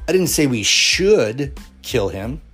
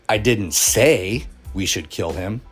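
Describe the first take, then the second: First: The stress is on the word should. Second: The stress is on the word say.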